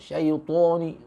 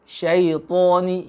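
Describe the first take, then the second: First: The t sound is made with pouted, rounded lips. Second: The t sound is made with unrounded lips. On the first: The speaker calls it wrong. "jangan sampai monyong" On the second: The speaker calls it right. "to syaitani gitu"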